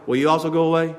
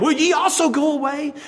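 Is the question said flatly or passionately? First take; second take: flatly; passionately. First: It is said flatly, without emotion. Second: It is said as a passionate, emotional plea.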